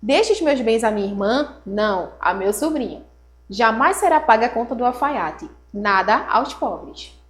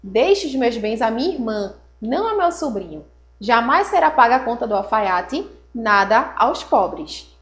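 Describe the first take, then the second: First: "irmã?" read as a question with a rise, then a firm falling "Não, a meu sobrinho."; nephew's punctuation. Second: "Deixe os meus bens à minha irmã" as a flat falling statement, pause, then "não a meu sobrinho"; steady statement on "irmã", comma pause before "não"; sister's punctuation. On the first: Teacher reading the nephew's version aloud, rising question then firm no. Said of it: "O sobrinho fez a seguinte pontuação". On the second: Teacher reading the sister's version aloud, calm statement with pauses. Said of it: "pontuou assim". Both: Shown as a demonstration.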